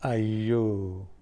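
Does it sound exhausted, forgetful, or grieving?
forgetful. It sounds like realizing something was forgotten.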